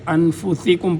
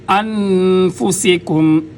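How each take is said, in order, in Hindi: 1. 's' की आवाज़ भारी है, इसमें सीटी नहीं। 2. 's' की आवाज़ में तेज़ सीटी जैसी सरसराहट है। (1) "पढ़ेंगे गलत होगा" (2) "सीन सीटी की आवाज़ आएगी"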